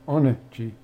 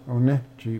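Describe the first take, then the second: First: The stress falls on the first syllable. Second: The stress falls on a later syllable. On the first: The speaker calls it right. "put the accent on the first syllable" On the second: The speaker calls it wrong. "don't say"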